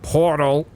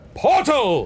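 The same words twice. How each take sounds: First: It is said flatly, with little energy. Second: It is said loudly, with excited energy. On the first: The speaker calls it wrong. "You kind of went" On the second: The speaker calls it right. "some emphasis that sounded more exciting and kind of vibrant"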